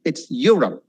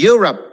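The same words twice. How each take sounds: First: "Europe" as "yu-rup"; correct pronunciation. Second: "Europe" as "yu-rop"; higher mistaken "Europe"; wrong pronunciation. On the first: Teacher modelling the right word. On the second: Teacher showing the wrong form. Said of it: "Don't say Europe". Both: Shown as a demonstration.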